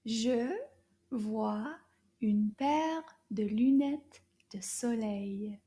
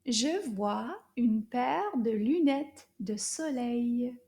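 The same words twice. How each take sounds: First: Slow French model. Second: Slow, clear, a little louder; slow repeat model. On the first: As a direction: model the sentence slowly. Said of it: "Toute la phrase". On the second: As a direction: model it again for them to echo. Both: Shown as a demonstration.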